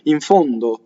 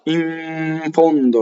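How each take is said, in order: First: The n sound passes by very quickly. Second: The n sound is held for too long. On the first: The speaker calls it right. "It just goes by, no one knows" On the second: The speaker calls it wrong. "if you did it too much and you linger on it, it's too much"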